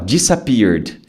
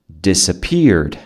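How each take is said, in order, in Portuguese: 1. A primeira sílaba começa com um som de D diferente. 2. A primeira sílaba é o som simples de 'dis'. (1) "Tem gente que fala disappeared. Não, não é D" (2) "É um dissa"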